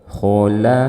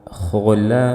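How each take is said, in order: Both takes have the same delivery.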